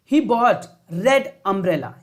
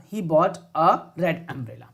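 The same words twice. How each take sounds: First: Slow reading of the blank sentence; slow question read. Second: Slow reading with "a" filled in; slow answer read. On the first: Teacher to class, reading the question slowly. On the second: Teacher to class, reading the answer slowly. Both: Shown as a demonstration.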